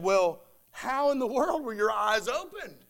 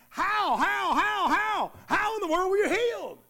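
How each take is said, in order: First: Said in the usual way. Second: Higher, astonished shouts of how; stunned disbelief, almost shouting; amazed neighbor's outcry. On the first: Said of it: "Again, the original language re-, reads". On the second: Retold or imitated. Neighbors amazed at the healed blind man, shouting in disbelief. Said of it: "the original language re-, reads".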